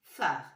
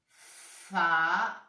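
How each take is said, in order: First: Said in the usual way. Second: "phare" stretched as "faaa", then a separate "re"; drawn-out reading. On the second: Shown as a demonstration. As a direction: sound out "phare" in two slow, loud parts. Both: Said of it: "Voilà comment ça se lit".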